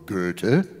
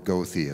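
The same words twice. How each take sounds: First: The name is said with a German-style pronunciation. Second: The name is said with an American-style pronunciation.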